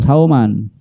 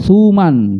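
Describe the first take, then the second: First: The first vowel is an 'au' diphthong. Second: The first vowel is a plain 'u' sound. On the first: The speaker calls it wrong. "bukan sauman" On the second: The speaker calls it right. "bidomisa ya, di dibaca domah"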